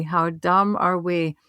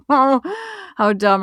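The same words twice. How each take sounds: First: Said in the usual way. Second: Slow words laughed out at their own foolishness; slow laughing self-mockery. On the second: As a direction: laugh through it, amused at yourself.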